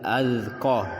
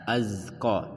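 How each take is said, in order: First: The z is voiced with no s sound. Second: The z carries an s-like hiss. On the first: The speaker calls it right. "za tidak ada bunyi s-nya" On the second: The speaker calls it wrong.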